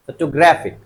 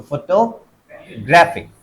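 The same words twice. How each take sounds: First: Said in the usual way. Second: photographic slowly, stress on ग्रा; slow model word. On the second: Shown as a demonstration. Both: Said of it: "तो photographic".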